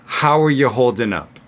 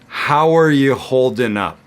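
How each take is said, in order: First: The sentence is said at a medium pace. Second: The sentence is said at a slow pace. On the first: "Medium fast" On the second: "I'm going to say it slowly"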